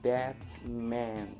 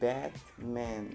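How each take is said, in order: The two takes are said the same way.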